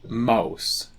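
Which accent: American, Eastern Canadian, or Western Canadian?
Western Canadian. Said in a Western Canadian accent.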